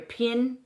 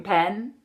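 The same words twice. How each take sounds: First: "pin" with short I, standing for pen; Irish "pen". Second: Said in the usual way. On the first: Shown as a demonstration. Coach showing the vowel, pen said as "pin". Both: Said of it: "not your pen".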